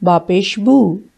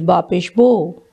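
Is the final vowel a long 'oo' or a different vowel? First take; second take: oo; different. First: The final syllable ends in an 'oo' vowel. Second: The final syllable ends in a different vowel. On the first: The speaker calls it right. "It's Bapesh boo. The pesh or the dhamma give the sound oo" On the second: The speaker calls it wrong. "some people say Bapesh bo. That is wrong"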